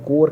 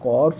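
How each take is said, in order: First: The word ends without any s sound. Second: The word ends with an audible s sound. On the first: The speaker calls it right. "कोर कहलाता है" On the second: The speaker calls it wrong. "कॉर्स मत पढ़िएगा"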